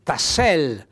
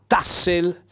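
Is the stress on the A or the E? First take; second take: E; A. First: The stress falls on the E. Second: The stress falls on the A. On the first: The speaker calls it right. "l'accento tonico va sulla E" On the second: The speaker calls it wrong. "c'è scritto l'accento tonico sulla A"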